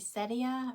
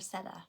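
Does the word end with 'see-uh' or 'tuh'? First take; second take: see-uh; tuh. First: The ending is said with an extra 'ee-uh' syllable. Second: The ending is said with a short 'tuh' sound. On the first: "Do y'all say setia" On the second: "or seta?"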